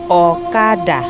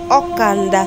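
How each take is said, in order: First: No n sound comes before the d. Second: An n sound comes before the d. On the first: The speaker calls it wrong. "those who do not really know how to pronounce it ... now pronounce Okada" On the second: The speaker calls it right. "it was now referred to as Okanda"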